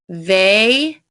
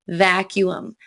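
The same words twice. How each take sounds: First: The first vowel is long. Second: The first vowel is short. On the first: The speaker calls it wrong. "Rule eight would make it sound like vacuum. Weird, right?" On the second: The speaker calls it right. "it is actually pronounced vacuum"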